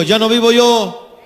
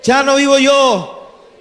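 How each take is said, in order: First: Louder and slow, leading the church; loud, slow proclaiming. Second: Louder and higher, very slow, at full force; louder, higher proclaiming. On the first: Preacher leads the congregation in a loud slow chant. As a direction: call it out slowly for the congregation to repeat. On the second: Preacher leads the congregation, repeat at full force. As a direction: proclaim it at the peak of the chant, slower still. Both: Acted. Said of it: "Digan conmigo".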